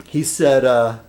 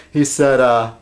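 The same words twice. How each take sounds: The two takes are said the same way.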